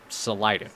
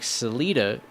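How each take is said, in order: First: The name is said the harder, more masculine-sounding way. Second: The name is said the softer, less masculine-sounding way. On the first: This form was meant to attract young men. "if you gave it a more masculine sounding name" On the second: This is the form that was avoided. "instead of like Salida"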